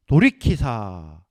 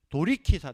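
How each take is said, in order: First: 돌이키사 drawn out slowly, low and loud; 돌이키사 said slow and heavy; slow emphasis. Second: Said in the usual way. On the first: Shown as a demonstration. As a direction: lean hard on 돌이키사, stretching it.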